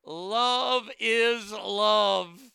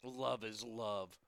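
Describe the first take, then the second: First: Loud, high, very drawn-out mock declaration; mock proclamation. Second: Low, soft, slow repeat of the quote; subdued scornful echo. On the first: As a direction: proclaim it grandly, stretching every word slowly. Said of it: "He went on to say". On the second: Retold or imitated. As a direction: echo it under your breath, unimpressed.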